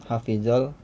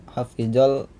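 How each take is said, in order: No difference in how they are said.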